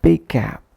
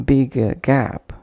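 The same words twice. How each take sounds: First: BIG GAP joined on a single firm g; one shared consonant. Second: BIG GAP with an "uh" between: "bigga gap"; extra vowel inserted. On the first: Teacher listing correct examples, one shared consonant. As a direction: flow "big" into "gap" without a break. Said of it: "making one impactful sound for both". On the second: Teacher demonstrating a wrong pronunciation, extra vowel inserted. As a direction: add a schwa after "big" before "gap". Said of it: "avoid bringing any other sound between". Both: Shown as a demonstration.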